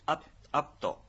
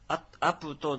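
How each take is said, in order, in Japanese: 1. pは母音のない、唇を閉じる子音です。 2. pの後に、はっきりしたu母音が続きます。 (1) "プーはですね、ちっちゃく書くアイヌ語の特殊な発音です。" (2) "アプトでなく"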